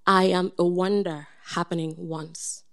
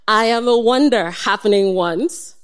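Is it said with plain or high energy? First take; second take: plain; high. First: It is said with plain, ordinary energy. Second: It is said with extra punch and energy.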